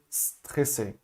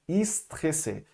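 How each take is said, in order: First: The word starts directly on the S sound. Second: An extra vowel sound comes before the S. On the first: The speaker calls it right. "você vai fazer a boca do S e soltar o a" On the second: The speaker calls it wrong. "o desejo de colocar um i"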